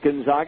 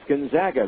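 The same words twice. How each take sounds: First: The middle syllable rhymes with 'logs'. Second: The middle syllable rhymes with 'bags'. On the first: The speaker calls it wrong. "Not Gonzaga" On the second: The speaker calls it right. "it's Gonzaga. They're the Zags"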